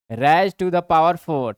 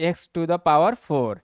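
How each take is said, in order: First: Slow systematic reading. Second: X to the power four read out slowly; slow reading aloud. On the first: Teacher showing the formal way to read it, slow and clear. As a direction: raise to the power four drawn out slowly. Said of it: "और systematic पढ़ना है तो". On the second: Teacher reading the power aloud to students, slowly. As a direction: spell out each word of "x to the power four" slowly. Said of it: "ऐसे भी पढ़ सकते हैं". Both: Shown as a demonstration.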